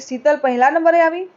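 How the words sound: It is said as a question.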